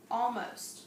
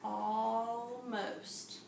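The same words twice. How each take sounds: First: Said in the usual way. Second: "almost" drawn out slowly, stretching the opening aw; teacher stretching "almost" sound by sound. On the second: Shown as a demonstration. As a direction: blend it slowly for the class. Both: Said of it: "So we have aw".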